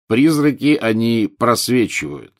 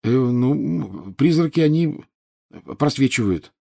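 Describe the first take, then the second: First: Mocking echo. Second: Halting, higher schoolboy answer; hesitant mumble. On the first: Teacher repeating the pupil's feeble answer, mockingly. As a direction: parrot the answer back, drawn out. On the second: A narrator's reading. Pupil put on the spot by the teacher, mumbling. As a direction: fumble for the answer, with pauses. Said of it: "промямлил Гарри".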